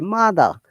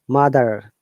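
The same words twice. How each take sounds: First: British accent, with no R sound at the end. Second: American accent, with an R sound at the end.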